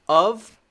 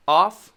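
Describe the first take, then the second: First: "Of" said with a final V; "Of" with a voiced ending; V sound. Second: "off" with a clear voiceless F; F sound. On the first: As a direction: say "Of" high and loud, ending "uhv". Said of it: "Of is actually the V sound". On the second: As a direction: say "off" high and loud, ending in breath. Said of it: "very clearly the f sound". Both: Shown as a demonstration.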